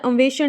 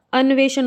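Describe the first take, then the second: First: अन्वेषण said as "amveshan", m before v; mispronunciation demo. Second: अन्वेषण with a clear n before v, "an-veshan"; correct pronunciation. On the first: Teacher showing the mistake, अन्वेषण as "amveshan". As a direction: blur the न of अन्वेषण into an m. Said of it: "अन्वेषण नहीं होता". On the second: Teacher correcting students, अन्वेषण as "an-veshan". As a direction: sound the न fully in अन्वेषण. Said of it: "अन्वेषण होता है". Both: Shown as a demonstration.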